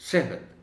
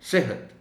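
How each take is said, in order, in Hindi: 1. दोहरे ह में बस हल्का सा इशारा होता है। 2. दोहरे ह में बस हल्का सा इशारा होता है।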